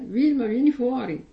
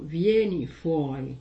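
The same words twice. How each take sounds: First: "Vilma, vieni fuori" called out louder; calling by name. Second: "Vieni fuori" said alone, slow, no name before it; just "Vieni fuori", drawn out; plain command without the name. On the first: Pretend. Priest imagining God calling a believer by name, louder call. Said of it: "saremo chiamati col nostro nome". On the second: Shown as a demonstration. Priest showing the command without the name, slow. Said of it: "non ha detto solo".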